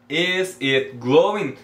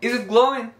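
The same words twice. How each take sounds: First: Each word is said separately, without linking. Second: 'Is it' is linked together like one word. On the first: The speaker calls it wrong. "Não fica tão natural" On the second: The speaker calls it right. "Elas falam Is it glowing? ... is it, como se fosse uma palavra só"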